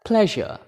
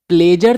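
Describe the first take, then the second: First: The middle consonant is a soft 'zh' sound. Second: The middle consonant is a hard 'j' sound. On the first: The speaker calls it right. "Best है प्लेजर" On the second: The speaker calls it wrong. "प्लेजर चल सकता है"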